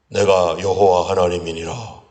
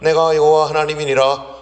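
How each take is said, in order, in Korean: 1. 위엄 있고 품위 있는 목소리로 말합니다. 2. 꾸밈없이 평범한 목소리로 말합니다.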